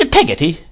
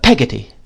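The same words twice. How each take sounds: First: High, incredulous repeat of the name; indignant. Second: Said in the usual way. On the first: A narrator's reading. Miss Betsy repeats the servant's name, indignant. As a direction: echo it with some indignation. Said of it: "repeated Miss Betsy with some indignation". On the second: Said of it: "said my mother".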